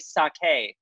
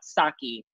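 First: The word has two syllables, the final E sounded. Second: The word has one syllable, the final E silent. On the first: "I love that you say sake" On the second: "not sake"

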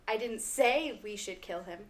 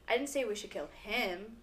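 First: The stress is on "say". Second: The stress is on "kill".

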